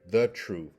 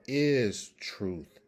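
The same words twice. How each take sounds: First: THE hit louder, then "truth" falling away; stressed "the" before "truth". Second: Slow, firm "is truth", no article; stress on IS. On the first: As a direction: punch "the" as the wrong word. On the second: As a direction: land hard on "is", then "truth". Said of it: "so that should not be the truth". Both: Shown as a demonstration.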